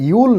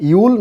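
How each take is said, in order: First: You'll starting on a plain vowel, higher pitch; wrong you'll. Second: You'll with a strong buzzing y onset; emphatic, frictional y starting you'll; consonant y. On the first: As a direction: say you'll as "ee-ool", without the consonant y. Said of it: "ইয়া সাউন্ডটাকে ভালো করে খেয়াল রাখেন, you'll না". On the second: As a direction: say you'll with a firm ইয়া glide and long oo. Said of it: "ইয়া সাউন্ডটাকে ভালো করে খেয়াল রাখেন". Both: Shown as a demonstration.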